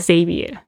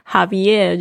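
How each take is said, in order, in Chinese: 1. 这个名字以嗡嗡的Z音开头。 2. 这个名字以喉音的类似H的音开头。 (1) "他把那个X 的发音是Z 的声音" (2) "就是这个是西班牙语的念法"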